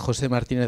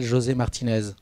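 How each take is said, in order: First: The name is said with Spanish pronunciation. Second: The name is said with French pronunciation. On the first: "en espagnol" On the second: "En français"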